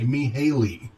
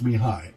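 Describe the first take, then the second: First: The final 'ly' of the name is sounded. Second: The name ends in an 'eye' sound. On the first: The speaker calls it wrong. "it looks like Mihaly" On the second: The speaker calls it right. "but it's pronounced Mihai"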